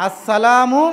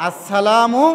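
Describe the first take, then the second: Both takes have the same delivery.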